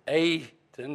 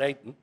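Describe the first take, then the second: First: The first vowel is a long A. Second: The first vowel is a short A. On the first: The speaker calls it right. "It's a long A, you pronounce it Aten" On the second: The speaker calls it wrong. "not Aten"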